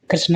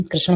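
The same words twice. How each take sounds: First: कृष्ण mispronounced as "krisn", plain n; dental na. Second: कृष्ण as "krisaṇ", curled ṇ at the end; retroflex ṇa. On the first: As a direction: end कृष्ण with the tongue forward. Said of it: "कृष्ण नहीं". (कृष्ण को "कृस्न" बोलें) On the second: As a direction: curl the tongue back to finish कृष्ण. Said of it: "कृष्ण होता है". (कृष्ण के अंत में "ण" बोलें) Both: Shown as a demonstration.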